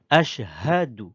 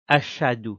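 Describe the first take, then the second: First: The h sound after 'ash' is clearly pronounced. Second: The h sound after 'ash' is left out. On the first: The speaker calls it right. "Il faut dire ashhadu" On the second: The speaker calls it wrong. "à ne pas dire ashadu"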